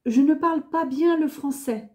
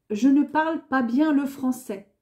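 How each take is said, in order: Both takes have the same delivery.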